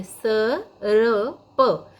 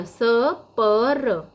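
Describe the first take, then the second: First: स, र, प in separate beats, र in the middle; correct sound order. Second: स, प, र in separate beats, र moved to the end; wrong sound order. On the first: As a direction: sound out स र प, putting र before प. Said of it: "ऐसे पढ़ना है". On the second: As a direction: sound out स प र, putting र after प. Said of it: "ऐसे नहीं पढ़ना है". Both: Shown as a demonstration.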